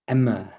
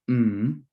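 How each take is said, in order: First: The consonant is followed by an added vowel. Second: A short pure consonant sound with no vowel. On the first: The speaker calls it wrong. "they might go emmer. I've really accentuated that" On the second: The speaker calls it right. "which makes the sound M"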